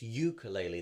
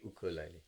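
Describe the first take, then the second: First: The word begins with a 'yoo' sound. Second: The word begins with an 'oo' sound. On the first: This is the anglicized form. The speaker calls it wrong. "not this ukulele, the yod that we had in English" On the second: This is the form used in most other languages. The speaker calls it right. "So it should be ukulele"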